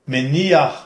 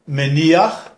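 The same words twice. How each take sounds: No difference in how they are said.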